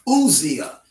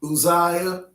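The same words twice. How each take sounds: First: Uzziah as oo-ZEE-uh; original-style pronunciation. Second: Uzziah as oo-ZYE-uh; common pronunciation. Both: Shown as a demonstration. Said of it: "we say Uzziah".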